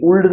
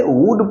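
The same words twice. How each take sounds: First: वुल्ड said with the L sounded, "vuld"; wrong pronunciation. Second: वुड said as "vud", with the L silent; correct pronunciation. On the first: Teacher showing students the misreading of a modal, वुल्ड with an audible L. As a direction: sound the L in वुल्ड as a learner's mistake. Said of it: "वुल्ड नहीं पढ़ते". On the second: Teacher correcting students' reading of a modal, वुड with silent L. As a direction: say वुड with no L at all. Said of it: "वुड पढ़ेंगे". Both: Shown as a demonstration.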